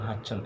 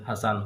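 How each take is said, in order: First: The name is said with a doubled ch sound. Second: The name is said with a clear s sound. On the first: The speaker calls it wrong. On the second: The speaker calls it right.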